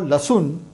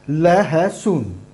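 First: The shortened form has two syllables, la-sun. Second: The full form has three syllables, la-ha-sun. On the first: This is the common everyday form. "even if you call lasun, lasun, it is valid" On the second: This is the pure, formal Hindi form. "that is a very pure form of Hindi"

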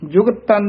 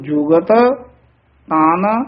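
First: The two t sounds run together as one. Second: The two t sounds are pronounced separately. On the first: The speaker calls it wrong. "ਜੁਗਤ ਤਨ ਨਹੀਂ ਕਹਿਣਾ।" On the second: The speaker calls it right. "ਉਹਨਾਂ ਨੂੰ ਨਖੇੜ ਕੇ ਪੜ੍ਹਨਾ"

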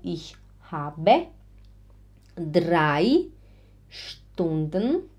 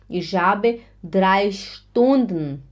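First: It is spoken slowly, with words repeated separately. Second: It is spoken at a normal, even speed.

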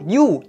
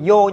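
First: The vowel is a long 'oo' sound. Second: The vowel is an 'oh' sound. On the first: The speaker calls it right. "Đó chính là họ you" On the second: The speaker calls it wrong. "chứ không có họ yo"

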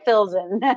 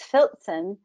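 First: The z is said plainly, without a t sound. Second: The z is said with a t sound, like ts. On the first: This is a simplified, easier pronunciation. "drop the T sound of the Z" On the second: This is the original German pronunciation. "If we pronounce it properly, it's Filzen"

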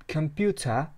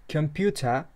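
No difference in how they are said.

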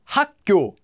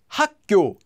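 Both takes have the same delivery.

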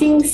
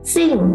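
First: The pitch stays high and level. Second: The pitch falls sharply from high to low.

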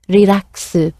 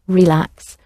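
First: It is lengthened with an added final vowel. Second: It is said as a short English word. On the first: "slightly elongated to fit Japanese pronunciation" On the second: "which is an English word"

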